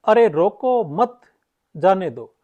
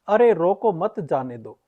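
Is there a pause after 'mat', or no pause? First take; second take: pause after mat; no pause. First: There is a pause after the word mat. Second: The sentence runs on without any pause inside. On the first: The person should be allowed to go. "यह भाव किसका है, जाने का है" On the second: It is unclear whether to stop someone or let them go. "यहां पर कोई भी विराम चिन्ह नहीं लगा है वाक्य के बीच में"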